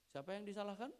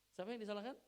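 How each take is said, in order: The two takes are said the same way.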